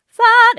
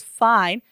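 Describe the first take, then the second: First: High, loud sung FINE held on an open AH; FINE without diphthong. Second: Said in the usual way. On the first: Shown as a demonstration. Vocal coach showing the matched vowel, FINE without its diphthong. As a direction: belt "fine" as "fahn". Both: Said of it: "if we don't sing it through the diphthong".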